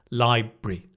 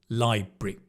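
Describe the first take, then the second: First: The middle syllable is swallowed. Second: The same.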